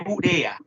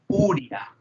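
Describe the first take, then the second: First: Urea with four syllables, u-re-a, stress on the e; u-RE-a with the e and a kept apart; correct urea. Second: Uria said as three syllables, u-ria; wrong uria. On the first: Teacher giving the correct pronunciation to the class. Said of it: "Es urea". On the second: Teacher showing a student the wrong way to say urea. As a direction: stress on the u-ri of uria, no hiatus. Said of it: "que no se pronuncia". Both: Shown as a demonstration.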